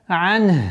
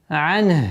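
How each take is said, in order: First: The final vowel is dropped at a stop. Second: The final vowel is dropped at a stop.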